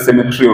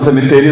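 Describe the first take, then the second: First: No vowel comes between the 't' and 'r'. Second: A full vowel comes between the 't' and 'r'. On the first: This is how the British say it. "ഈ ബ്രിട്ടീഷുകാർക്ക് സെമിട്രി ഉള്ളൂ" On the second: This is how Malayalis read it. "നമ്മൾ സെമിത്തേരി എന്നാണ് എഴുതുമ്പോൾ വായിക്കുക"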